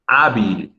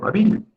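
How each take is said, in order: First: "Hábil" with stress on the first syllable; correct stress. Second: High-pitched "hábil" with stress on the last syllable; acted misreading of "hábil", stressed on "bil". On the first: Shown as a demonstration. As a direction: say "Hábil" as "AH-beel", falling after "Há". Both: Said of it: "saber cómo se pronuncia una palabra".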